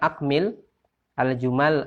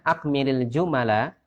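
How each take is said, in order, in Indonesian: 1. Harakat pendek di akhir kata dihilangkan. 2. Harakat pendek di akhir kata dibaca. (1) "Kalau kita wakaf semuanya" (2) "Kalau kita baca harokat akhirnya"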